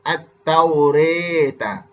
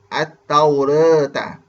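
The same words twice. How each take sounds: First: The vowel after r sounds close to e. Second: The vowel after r is halfway toward e. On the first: "condong ke arah kasrah... bunyi re" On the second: "berada di pertengahan antara baris fathah dengan baris bawah"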